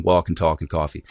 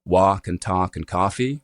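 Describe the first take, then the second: First: "walk and talk and coffee" with rounded "aw"; rounded vowel. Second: "walk and talk and coffee" with open "ah"; merged open "ah" in "walk and talk and coffee"; unrounded vowel. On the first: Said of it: "the sound is rounded". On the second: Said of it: "you'll have it with just an ah sound". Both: Shown as a demonstration.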